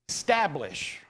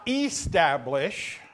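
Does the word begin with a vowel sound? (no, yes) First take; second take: no; yes. First: The word begins directly with an s sound. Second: The word begins with a vowel sound. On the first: The speaker calls it right. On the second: The speaker calls it wrong. "Not establish"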